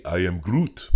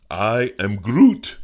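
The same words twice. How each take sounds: First: A hint of Groot; Groot line. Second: Higher, much louder and slow; big dramatic Groot line; booming Groot. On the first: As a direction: say it as the tree Groot. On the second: Pretend. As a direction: stretch out a huge Groot roar. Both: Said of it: "I didn't get to say".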